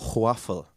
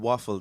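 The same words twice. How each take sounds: First: The word begins with a breathy hw sound. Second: The word begins with a plain w sound. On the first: The speaker calls it wrong. "They put a H before the W in waffle" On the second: The speaker calls it right. "instead of saying waffle"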